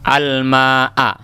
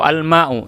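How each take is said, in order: First: The word ends in the vowel a. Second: The word ends in the vowel u. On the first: The speaker calls it right. "tanda nasabnya di sini adalah fathah" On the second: The speaker calls it wrong. "Jangan dibuat al-ma'i atau al-ma'u, salah"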